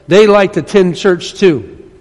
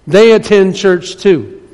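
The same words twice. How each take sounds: First: Said in the usual way. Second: "They attend church too" slowed down and weighted; slow, deliberate repeat. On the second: Shown as a demonstration.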